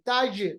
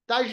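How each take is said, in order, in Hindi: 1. अंतिम व्यंजन गूंजती हुई उछाल के साथ खत्म होता है। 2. अंतिम व्यंजन बिना उछाल के सपाट रुक जाता है। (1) "जीम पे कलकला होता है" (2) "ताज नहीं पढ़ेंगे"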